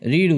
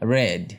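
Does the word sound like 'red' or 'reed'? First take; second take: reed; red. First: The word is said as 'reed'. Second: The word is said as 'red'. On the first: The speaker calls it wrong. "Past টেন্সে রিড উচ্চারণ হবে না" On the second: The speaker calls it right. "হবে ভার্বের second form রেড"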